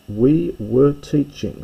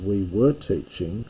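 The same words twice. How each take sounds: First: We were teaching said slowly, higher and louder, leaning on were; slow emphatic reading. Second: Said in the usual way. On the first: Shown as a demonstration. Teacher contrasting active with passive, slow stressed reading. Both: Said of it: "So this is the active now to compare the two".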